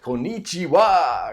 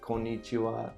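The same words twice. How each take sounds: First: Said with strong emphasis on part of the word. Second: Said flat, without strong emphasis on any part. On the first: The speaker calls it wrong. "the most uh, common American accent might be to say something like" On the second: The speaker calls it right. "it should be more flat"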